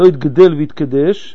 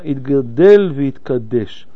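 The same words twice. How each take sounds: First: The words have the Aramaic vowel forms. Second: The words have the Hebrew vowel forms. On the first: The speaker calls it wrong. "ולא בשני שבעים" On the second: The speaker calls it right. "עברי לא תרגום"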